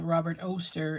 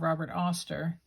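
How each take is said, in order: First: Oster rhymes with toaster. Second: Oster does not rhyme with toaster. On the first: The speaker calls it right. "Robert Oster rhymes with toaster" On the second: The speaker calls it wrong. "instead of"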